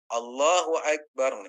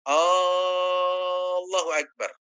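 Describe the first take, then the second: First: The opening vowel is kept short. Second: The opening vowel is drawn out long. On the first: It is a statement that God is great. The speaker calls it right. "A-nya nggak boleh panjang, berarti Allahu Akbar" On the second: It sounds like asking whether God is great. The speaker calls it wrong. "nggak boleh misalkan hamzahnya dipanjangkan"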